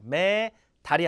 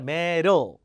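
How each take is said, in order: First: The d is a full, clear d sound. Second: The d is a soft, quick flap. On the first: The speaker calls it wrong. "메달이 아니라" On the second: The speaker calls it right. "D가 리을처럼 돼요"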